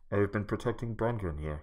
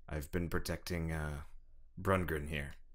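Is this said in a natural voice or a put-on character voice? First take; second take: put-on; natural. First: It is said in a put-on character voice. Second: It is said in the speaker's ordinary voice.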